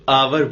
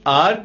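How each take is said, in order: First: It is said in the American way. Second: It is said in the non-American way.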